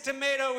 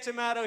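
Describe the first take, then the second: First: It is said in an American accent. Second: It is said in a British accent.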